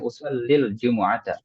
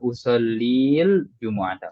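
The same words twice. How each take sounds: First: The final vowel runs short into the next word. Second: The final vowel of usalli is drawn out long. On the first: The speaker calls it right. "langsung ... Langsung masukkan ke alif lam ya" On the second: The speaker calls it wrong. "enggak seperti itu ya. Maksudnya enggak usallil jumu'ata, enggak perlu"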